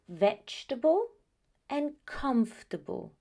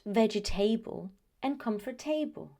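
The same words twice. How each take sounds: First: The ending is said weak and reduced. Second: The ending is said fully, like 'table'. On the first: The speaker calls it right. "No, they are" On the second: The speaker calls it wrong. "It is not"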